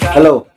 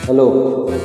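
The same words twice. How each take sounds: First: The voice sounds dry, without room reverb. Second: The voice sounds like it is inside a room. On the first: "So yung M C" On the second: "Nasa loob ng kwarto ka"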